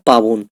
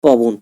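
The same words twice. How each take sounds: First: পাবন said with a long open aa, paa-bon; careful teaching demo of পাবন; long a in pabon. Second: পবন said with a short first vowel, po-bon; careful teaching demo of পবন; short a in pobon. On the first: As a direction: stretch the aa in পাবন. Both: Shown as a demonstration. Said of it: "এবার দেখো, পবন আমরা পেলাম".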